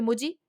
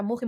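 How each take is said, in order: First: "Muji" with a soft y-like j. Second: "Muji" with a throaty Spanish j; Spanish jota in Muji. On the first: Unsure host trying out the store name, "Muji" with soft j. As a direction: say "Muji" as MOO-jee. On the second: Unsure host trying out the store name, "Muji" with Spanish j. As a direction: say "Muji" as MOO-khee. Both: Shown as a demonstration. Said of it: "no sé cómo se pronuncia".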